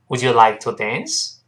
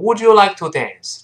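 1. 句尾声音上升。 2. 句尾声音下降。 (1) "这是一般疑问句，最后是声调喽" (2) "不要读成"

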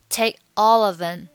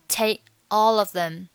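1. take 的结尾不发音；只有 all of them 连读。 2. take 的结尾不发音；只有 all of them 连读。

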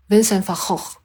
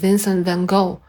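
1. 这个名字是用荷兰式发音说的。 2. 这个名字是用美式发音说的。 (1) "然后其实荷兰的读音是" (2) "但是美音呢他也读作"

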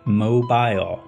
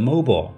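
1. 最后一个音节保留完整的 'ile' 元音。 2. 最后一个音节的元音被省略并弱化。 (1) "他们更加倾向于读成最原始的版本mobile" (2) "大家基本上都读成mobile"

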